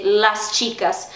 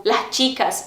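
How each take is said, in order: First: Las chicas with a clear hissed s in las; full s. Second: Las chicas with the s breathed as h, "lah chicas"; aspirated s. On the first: Teacher contrasting standard las chicas, full s. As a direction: pronounce the s of las fully before chicas. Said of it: "em vez de las chicas". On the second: Teacher showing learners an accent variant, aspirated s in las chicas. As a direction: drop the s of las into a light h. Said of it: "eles têm o S aspirado". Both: Shown as a demonstration.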